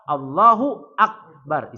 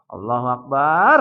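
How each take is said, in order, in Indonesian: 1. Vokal setelah 'b' dibaca pendek. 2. Vokal setelah 'b' dibaca panjang. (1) "isim tafdil ... enggak pakai mat tuh baknya" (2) "banyak ibu-ibu ngucap Allahu Akbarnya salah ... salah itu"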